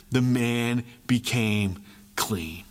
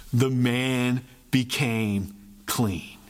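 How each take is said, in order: Both takes have the same delivery.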